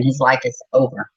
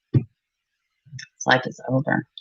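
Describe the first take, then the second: First: Said in the usual way. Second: Much softer and slow, sinking away; quiet grief. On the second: Real, not acted. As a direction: let it fade out slowly. Grieving over a dead child.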